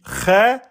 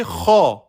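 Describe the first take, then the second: First: Khe said thin and light; light thin vowel. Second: Kha said heavy from the back; emphatic letter. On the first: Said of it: "soit je dis Khe". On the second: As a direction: swell the mouth for Kha. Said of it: "C'est une lettre emphatique". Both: Shown as a demonstration.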